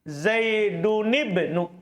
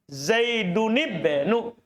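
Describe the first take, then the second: No difference in how they are said.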